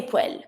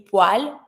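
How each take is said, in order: First: Poêle with an open eh, like pwel; speaker's own variant. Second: Poêle with an ah vowel, like pwal; A sound. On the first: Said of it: "I say poêle". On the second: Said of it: "with more like a A sound". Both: Shown as a demonstration.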